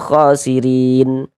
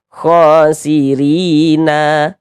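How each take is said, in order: First: The word ends on a silent n sound. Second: The word ends with an added a vowel. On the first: The speaker calls it right. "kalau berwakaf di huruf nun kita baca khosirin" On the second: The speaker calls it wrong. "Jangan dibaca khosirina"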